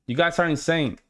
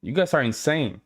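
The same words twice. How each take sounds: The two takes are said the same way.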